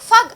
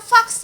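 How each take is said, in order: First: The word ends with a g sound. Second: The word ends with a ks sound. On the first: The speaker calls it right. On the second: The speaker calls it wrong. "Tapi bukan fax ya"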